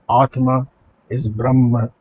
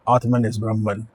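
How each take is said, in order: First: Both names end without an n sound. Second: Both names end with an n sound. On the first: The speaker calls it right. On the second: The speaker calls it wrong.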